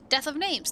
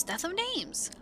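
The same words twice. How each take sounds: First: Sing-song chant. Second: Sing-song chant fading. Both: Acted. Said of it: "curious sing-song voice".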